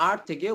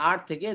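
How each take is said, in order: Both takes have the same delivery.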